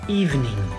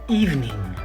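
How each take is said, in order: Both takes have the same delivery.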